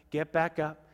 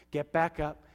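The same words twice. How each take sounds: The two takes are said the same way.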